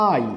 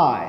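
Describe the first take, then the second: First: "আই" said the common Bangladeshi way; ভুল উচ্চারণে আই. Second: "আই" as a careful English letter name; সঠিক উচ্চারণে আই. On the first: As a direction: say "আই" as learners here usually do. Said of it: "but this is not". (বাঙালি ঢঙে ভুল "আই") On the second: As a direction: model "আই" drawn out as in English. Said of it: "এটার right pronunciation হচ্ছে". (ইংরেজি ঢঙে টেনে "আই") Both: Shown as a demonstration.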